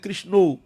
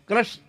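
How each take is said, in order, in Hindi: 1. नाम 'o' स्वर पर खत्म होता है, बांग्ला शैली में। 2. नाम छोटा करके 'krash' बोला गया है। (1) "बांग्ला में कहेंगे" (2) "ब्रज में ब्रजवासी लोग वैसे क्रश क्रश करते हैं"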